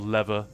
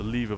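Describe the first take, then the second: First: It is pronounced with an American accent. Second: It is pronounced with a British accent.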